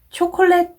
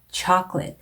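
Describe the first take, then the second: First: It is said with Korean-style syllables. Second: It is said with English-style syllables. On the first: The speaker calls it wrong. "초콜릿 네 번 하셨으면 점수에 영향 미칠 수 있습니다" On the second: The speaker calls it right. "chocolate 요 발음"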